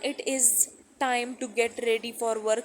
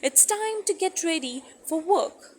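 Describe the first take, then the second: First: 'It is' is said as two separate words. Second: 'It is' is joined into one word 'it's'. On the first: The speaker calls it wrong. "सुनने में तो कितना डल सा लग रहा है" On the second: The speaker calls it right. "मैं इट इज नहीं बोल रही, मैं बोल रही हूँ इट्स टाइम"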